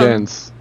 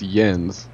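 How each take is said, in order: First: The name begins with a J sound. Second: The name begins with a Y sound. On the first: The speaker calls it wrong. "It's not gents" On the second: The speaker calls it right. "it's yens"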